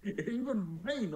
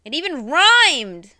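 First: High, slow echo of the amazement; amused echo; echoed surprise. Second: Loud, high, slow amazement; impressed exclamation; excited shout. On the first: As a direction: repeat it, impressed. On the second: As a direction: shout it in delight. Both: Real, not acted.

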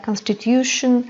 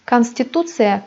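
First: Constitution ending in -shun; English-style constitution for comparison; English pronunciation. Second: Konstitusiya ending in -tsıya, stress on tu; Russian kan-sti-TU-tsı-ya; Russian pronunciation. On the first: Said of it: "İngilizce telaffuzuna". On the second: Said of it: "İngilizce telaffuzuna benzeyen sözcüklerdir". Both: Shown as a demonstration.

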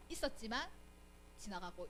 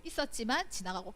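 First: 있었지만 rising, then 지나가고 dropping almost to nothing; fading softly. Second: Said in the usual way. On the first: Shown as a demonstration. Preacher showing kingdoms passing, voice fading out on 지나가고. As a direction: let 지나가고 fade away as the empires pass.

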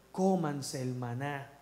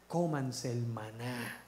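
First: Slower repeat, stress on "Cómanse"; repeated exhortation. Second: Slow, low, each word weighed; slow emphatic exhortation. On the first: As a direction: hammer "Cómanse" home again. (repetición enfática en "Cómanse") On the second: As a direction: press the command home, slowly. (exhortación lenta y grave) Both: Shown as a demonstration.

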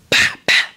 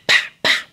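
Both takes have the same delivery.

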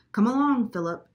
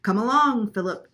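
First: High, loud singsong call, falling on the name; chirped. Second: High, very loud bird mimicry; chirped imitation. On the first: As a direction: chirp it to summon the boy. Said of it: "she chirped". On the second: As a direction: echo the call like a chirping parrot. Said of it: "chirped Lena in the kitchen". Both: A narrator's reading.

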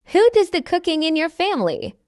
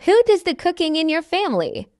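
Both takes have the same delivery.

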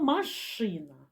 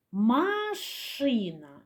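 First: Said in the usual way. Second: "Машина" stretched very slowly, sound by sound; slow sound-analysis reading of "Машина"; drawn-out word. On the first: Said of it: "Зробимо звуковий аналіз слова". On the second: Shown as a demonstration. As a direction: linger on each sound of "Машина". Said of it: "Зробимо звуковий аналіз слова машина".

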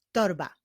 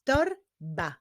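First: Said in the usual way. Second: "Torba" broken into Tor, ba; two measured beats on "Torba"; syllable by syllable. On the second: Shown as a demonstration. Teacher clapping the last example, "Torba" split into syllables. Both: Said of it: "Wyklaszczmy sylaby w tych wyrazach".

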